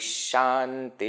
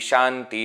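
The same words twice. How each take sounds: First: The word ends with an sh sound. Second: The word ends with an h sound. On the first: The speaker calls it right. "previous Visarga will be pronounced as Sha" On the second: The speaker calls it wrong. "You should not say"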